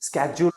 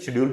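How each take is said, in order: First: It begins with an 'sk' sound. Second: It begins with an 'sh' sound. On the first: This is the American pronunciation. "स्केड्यूल American में बोलते हैं" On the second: This is the British pronunciation. "शेड्यूल भी बोलते हैं British में"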